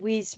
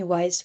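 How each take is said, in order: First: "Wies" with a long ee, said "weess"; Dutch pronunciation. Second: "Wise" said like the English word, with an eye sound; English pronunciation. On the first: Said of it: "you pronounce it Wies". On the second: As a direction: say "Wise" the English way, rhyming with "rise". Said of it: "everybody calls me Wise when they're English". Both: Shown as a demonstration.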